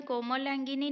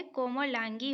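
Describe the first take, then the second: First: कोमलांगिनी ending "gi-ni"; कोमलांगिनी said ko-ma-laan-gi-ni; wrong extra ending. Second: कोमलांगी ending "gi"; कोमलांगी said ko-ma-laan-gi; correct short ending. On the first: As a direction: add "ni" at the end of कोमलांगिनी. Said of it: "नहीं होता है". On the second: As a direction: stop on "gi" in कोमलांगी. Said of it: "होता है". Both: Shown as a demonstration.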